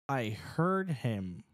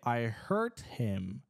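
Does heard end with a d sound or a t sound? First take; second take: d sound; t sound. First: The final sound of heard is a voiced d. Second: The final sound of heard is a voiceless t. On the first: The speaker heard him. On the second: The speaker hurt him.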